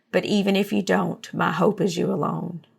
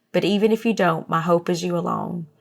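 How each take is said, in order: The two takes are said the same way.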